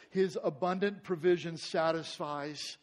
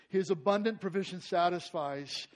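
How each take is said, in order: First: "His" leaned on, slow and deliberate; measured statement. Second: "abundant" punched, a touch louder; stress on abundant. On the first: Pastor stating the first truth, slow and weighty. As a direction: set down "His abundant provision satisfies" slowly, word by word. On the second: Pastor repeating the point, stressing abundant. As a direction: hammer home "abundant" on the repeat. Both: Shown as a demonstration.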